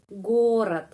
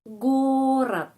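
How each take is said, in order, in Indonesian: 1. Vokal kedua terdengar seperti a; diakhiri dengan t. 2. Vokal kedua terdengar seperti a; diakhiri dengan t.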